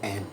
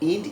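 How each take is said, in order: First: The vowel is an open 'a' sound. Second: The vowel is a close 'i' sound. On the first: The speaker calls it right. "এটা হবে অ্যান্ড" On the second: The speaker calls it wrong. "বিদেশিরা কিন্তু এভাবে বলবে না। ... ইন্ড কোনো শব্দ না"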